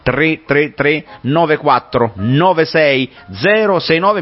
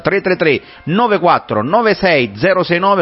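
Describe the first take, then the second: First: The number is read slowly. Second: The number is read at a normal pace.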